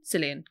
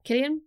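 First: Cillian said with a soft S and a lower voice; trying the name. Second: Cillian said with a hard K, rising; trying the name. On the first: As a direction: Cillian as SIL-ee-an, tentative. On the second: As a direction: Cillian as KIL-ee-an, questioning. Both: Shown as a demonstration. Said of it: "Cillian Murphy".

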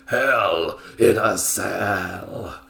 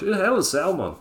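First: Very slow, stretched Hell in a Cell; slow, hammed-up match billing; drawn-out announcement. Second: Higher, put-on Scottish voice; quick Scottish impression; mock Scottish accent. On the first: Shown as a demonstration. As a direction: draw each word right out for drama. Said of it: "He didn't say it like that". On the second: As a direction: imitate a Scotsman, pitched up. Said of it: "he said it in Scottish".

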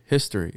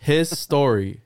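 First: Said in the usual way. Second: "His story" drawn out slowly as two separate words; split wordplay. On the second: Shown as a demonstration. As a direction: stretch "His story", parting "His" from "story".

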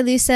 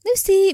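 First: LUCY ending in an "eh"; "Lucy" with a loose last vowel; open ending. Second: LUCY higher, ending in "ee"; high "Lucy" with a clear final "ee". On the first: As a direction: say "Lucy" as "Loo-seh". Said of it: "No, I say Lucy". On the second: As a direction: say "Lucy" as "Loo-see", pitched up. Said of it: "and then, like". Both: Shown as a demonstration.

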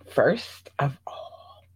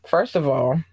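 First: Slow, breathy secret whisper of "first of all". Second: Said in the usual way. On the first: Shown as a demonstration. Repeats opener secretively.

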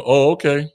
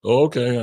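First: Dismissive oh okay. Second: A curt, uninterested "Oh, okay."; dismissive oh okay. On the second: Shutting down a disrespectful person, a curt brush-off. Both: Shown as a demonstration. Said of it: "the simple".

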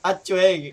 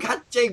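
First: "Atchweng" with no H and a w glide; correct name pronunciation. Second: "Hatching" with an H and no w glide; wrong name pronunciation. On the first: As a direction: say "Atchweng" firmly, ending in "chweng". ("Atchweng" na walang H, may "chweng" sa dulo) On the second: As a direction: say "Hatching", the mistaken form of Atchweng. ("Hatching" na may H at walang tunog na w) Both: Shown as a demonstration. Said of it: "wag Hatching".

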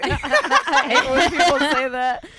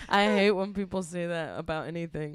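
First: Laughing through it, slowed down. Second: Said in the usual way. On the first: Real, not acted. Friend mocking a cliché, laughing. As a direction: giggle while saying it, drawn out.

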